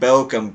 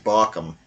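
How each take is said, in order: First: The first vowel sounds like an umlaut ö. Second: The first vowel sounds like a plain o. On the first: The speaker calls it wrong. "if it was Bochum, there would be an umlaut over the O" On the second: The speaker calls it right. "but it's not. It's Barkham"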